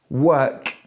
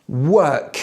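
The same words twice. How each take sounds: No difference in how they are said.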